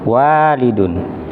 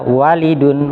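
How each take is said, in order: First: The first vowel is long. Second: The first vowel is short. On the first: The speaker calls it right. "harusnya dibaca panjang" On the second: The speaker calls it wrong. "wanya kebaca pendek"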